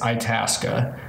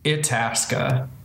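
First: It is said the local Minnesotan way. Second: It is said the way the spelling suggests. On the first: This is how people from the state actually say it. "the pronunciation of that Minnesotans say is Itasca" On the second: This is how it looks like it should be said. "it should be pronounced in like American English, Itasca. But no one says it that way"

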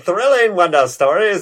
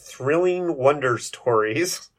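First: The title is said in a dramatic, showy way. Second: The title is said in a flat, ordinary way.

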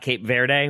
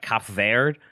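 First: The first word has a long vowel, like 'cape'. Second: The first word has a short vowel, like 'cap'. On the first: The speaker calls it wrong. "not Cape Verde, which is what I said" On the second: The speaker calls it right. "it's actually like Cap Verde. Is how you pronounce the name of the country"

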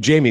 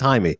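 First: The name is said like English Jamie. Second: The name is said with Spanish pronunciation. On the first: The speaker calls it wrong. "They keep calling him Jamie" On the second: The speaker calls it right. "actually it's Jaime"

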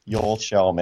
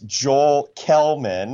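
First: The surname begins with a soft sh sound. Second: The surname begins with a hard k sound. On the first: The name is said as in its home language. "The correct Swedish pronunciation is Joel Shellman" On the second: The name is read as it is spelled. "If you read his name, it's Joel Kellman"

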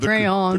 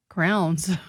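First: It is said with two syllables, cray-ons. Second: It is squeezed into one syllable, like crowns. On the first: The speaker calls it right. "thank you for saying crayons" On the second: The speaker calls it wrong. "Those of you saying crowns, stop it"

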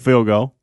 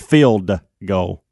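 First: The words are pronounced sloppily, with slurred sounds. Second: The words are pronounced carefully, with clear sounds. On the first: The speaker calls it wrong. "I used to go field goal" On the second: The speaker calls it right. "It's field goal"

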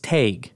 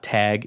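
First: It has a Wisconsin long A vowel. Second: It has a standard short a vowel.

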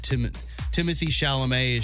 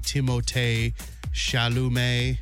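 First: The first name has the familiar English pronunciation. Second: The first name has a French-style pronunciation. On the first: The speaker calls it wrong. "I'm sure I've been mispronouncing" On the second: The speaker calls it right. "should actually be"

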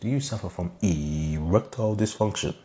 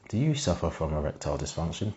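First: The final words sound separate, like a dubbed voice. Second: The final words match the rest of the sentence. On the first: The speaker calls it right. "It's like they've dubbed his voice in" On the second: The speaker calls it wrong. "No, I didn't say that"

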